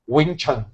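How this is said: It is said with an American English accent. The speaker calls it wrong. "ele vai falar Wing Chun"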